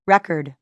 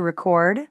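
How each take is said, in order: First: Record as a noun, REC-ord; stress on first syllable. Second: Record as a verb, re-CORD; stress on second syllable. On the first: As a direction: punch the start of "record", falling away. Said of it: "Noun, record". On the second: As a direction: stress the end of "record", rising. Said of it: "Verb, to record". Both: Shown as a demonstration.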